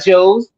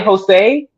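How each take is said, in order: First: The name is said as one syllable, like 'Joes'. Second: The name is said as two syllables, 'Ho-say'. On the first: The speaker calls it wrong. "no one goes, "Hey, what up, Joes?"" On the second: The speaker calls it right. "We say, "Hi, Jose.""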